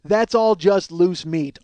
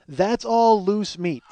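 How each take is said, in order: First: Slow, louder mocking quote; slow mocking self-quote; slow mocking repeat. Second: Slow, deadpan quote of his own line; slow deadpan self-quote; slow deadpan repeat. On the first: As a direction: stretch each word like it's absurd. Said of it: "more acceptable than". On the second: Retold or imitated. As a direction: drag it out, flat and matter-of-fact. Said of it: "That's what I say".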